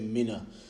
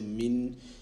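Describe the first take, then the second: First: A short vowel is added after the n. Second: The n is held with no vowel after it. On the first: The speaker calls it wrong. "Don't say mina" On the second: The speaker calls it right. "Say min, make the noon sound stick"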